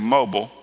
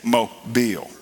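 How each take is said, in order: First: The word has an outsider, non-local pronunciation. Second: The word has the local Mobile pronunciation. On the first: This is not how locals say the city's name. The speaker calls it wrong. "he wouldn't say mobile" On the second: This is how locals say the city's name. The speaker calls it right. "He would say Mobile"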